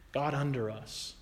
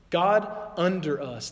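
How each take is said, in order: First: Softer "God under us", low and closing; quiet recap. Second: "God" leaned on, slow and emphatic; slow, weighty "God under us"; stress on God. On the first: Preacher closing the point, softer and lower. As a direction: let "God under us" fall soft as a summing up. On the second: Preacher naming a wrong view of God, slow and stressed. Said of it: "God below you, God under us". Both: Shown as a demonstration.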